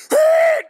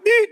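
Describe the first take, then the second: First: A shouted, very high, loud horn "Beep"; blaring horn blast. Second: A small, timid car-horn beep; a tiny tap on the horn; polite little beep. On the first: Speaker telling teens a car scared him, shouted horn blast. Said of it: "I'm talking". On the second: Speaker contrasting a weak horn with a huge one, small beep. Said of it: "I'm not talking like". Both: Shown as a demonstration.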